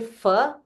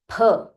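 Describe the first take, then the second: First: The first sound is a plain 'f'. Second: The first sound is an aspirated 'ph'. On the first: The speaker calls it wrong. "do not say fa" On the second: The speaker calls it right. "it is pha"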